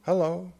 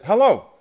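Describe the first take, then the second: First: Lightly imitated frail voice answering the phone; a high, tentative, fragile greeting; hint of a hollow, fragile phone voice. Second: Loud, high, eager phone hello; big emphatic hello, pitched high and falling; hearty greeting. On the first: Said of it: "sort of hollow, fragile". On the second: Retold or imitated. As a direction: call it out brightly down the line. His own reply on the phone.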